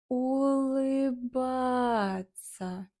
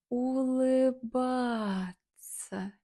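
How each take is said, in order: The two takes are said the same way.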